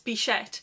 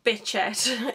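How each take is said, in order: First: The middle consonant has no 't' sound, like 'sh'. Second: The middle consonant has a 't' sound, like 'ch'. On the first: The speaker calls it right. "there's no T in it, it's bichette" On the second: The speaker calls it wrong. "it's not bitchette"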